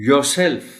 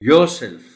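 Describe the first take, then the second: No difference in how they are said.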